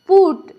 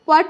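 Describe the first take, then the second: First: The vowel is a short 'oo' sound. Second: The vowel is a short 'uh' sound. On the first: The speaker calls it right. "यू का उच्चारण क्या हुआ है? उ हुआ है" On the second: The speaker calls it wrong. "इसे जो है ना आप पट मत पढ़िएगा"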